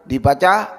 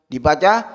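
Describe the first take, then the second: No difference in how they are said.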